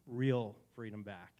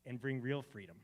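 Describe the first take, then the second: First: "real freedom" slow and louder; stress on real freedom. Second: Said in the usual way. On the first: Shown as a demonstration. Preacher repeating "real freedom" to the room, slow emphasis. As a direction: lean into "real".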